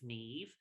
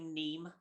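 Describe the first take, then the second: First: The name ends with a v sound. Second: The name ends with an m sound. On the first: The speaker calls it right. "it's Neve" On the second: The speaker calls it wrong. "would say Neem, and I'm like, no"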